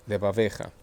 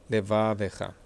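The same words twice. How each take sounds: First: "levavecha" as leva-VE-cha, long e; stress on VE. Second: "Levavecha" as le-VA-vecha, short ve; stress on VA. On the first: Teacher recapping the contrast for students, stress on VE. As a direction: put the weight on VE in "levavecha". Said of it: "This is long A". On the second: Teacher recapping the contrast for students, stress on VA. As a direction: put the weight on VA in "Levavecha". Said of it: "this is short A". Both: Shown as a demonstration.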